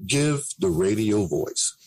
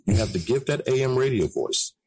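First: Radio voice. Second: Said in the usual way. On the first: Shown as a demonstration.

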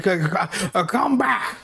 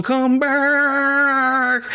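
First: A mock angry call, much higher; hammed-up furious come back; mad hermit yell. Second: Much higher, louder, drawn-out echoing come back; echoing call. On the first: Hermit yells after the fleeing gang in a mock angry, much higher voice. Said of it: "starts screaming at him to come back, mad as hell". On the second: Retold or imitated. The hermit's last echoing call after the gang, much higher and louder. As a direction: call it like it echoes off the hills. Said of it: "the echo on the last one".

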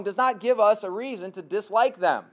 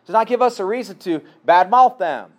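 First: Said in the usual way. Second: Repeated louder, badmouth punched and falling. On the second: Real, not acted. Preacher repeating his point to drive it home, louder with badmouth stressed.

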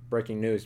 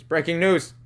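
First: Said in the usual way. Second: Louder, higher news-anchor announcement; loud mock newsroom headline; announcer call.

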